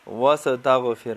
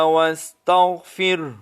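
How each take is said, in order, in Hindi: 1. s और gh ध्वनियों में अतिरिक्त स्वर जोड़े जाते हैं। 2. s और gh ध्वनियों में कोई स्वर नहीं जोड़ा जाता।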